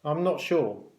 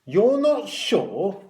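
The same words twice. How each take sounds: First: Mildly uncertain answer; hesitant boy. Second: High, loud, drawn-out echo with rising end; loud incredulous question. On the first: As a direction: admit it a little hesitantly. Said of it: "The boy hesitated before answering". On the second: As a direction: repeat it for the whole ward to hear. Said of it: "said Matron loudly so everyone could hear". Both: A narrator's reading.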